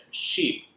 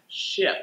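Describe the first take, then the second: First: "sheep" with a long tense ee; long E contrast. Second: "ship" with a short, lax i; short I sound. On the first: Teacher contrasts the mistake with the right vowel, long ee. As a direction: draw out "sheep" as the wrong version. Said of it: "instead of sheep". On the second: Teacher models the correct vowel for learners, short i. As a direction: clip "ship" short, tongue in the middle, no ee. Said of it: "you need to use the I sound". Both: Shown as a demonstration.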